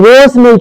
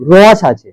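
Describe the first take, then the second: First: রস with closed o, like "rohsh"; wrong o vowel. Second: রস with open aw, like "rawsh"; open vowel in রস. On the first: Teacher rules out the o-kar, closed o in রস. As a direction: round the vowel in রস to show the mistake. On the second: Teacher gives the correct sound, open aw in রস. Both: Shown as a demonstration. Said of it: "র ওকার কিন্তু ওখানে উপস্থিত নেই".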